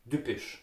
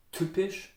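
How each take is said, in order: First: Typisch with soft D-like T, "dübisch"; Austrian pronunciation. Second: Typisch with a hard T and P; higher, rising typisch in Standard German; hard consonants. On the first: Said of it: "In Austria you would say". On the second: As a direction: say typisch with firm T, not D. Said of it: "the hard consonants". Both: Shown as a demonstration.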